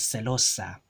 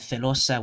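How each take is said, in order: First: The word begins with an s sound. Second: The word begins with a th sound.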